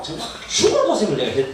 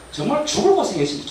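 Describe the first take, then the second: First: "정말 죽을 고생을" with a Gyeongsang dialect lilt. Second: Said in the usual way. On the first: Shown as a demonstration. Repeating his hardship to the church in Gyeongsang dialect. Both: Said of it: "경상도 사투리로".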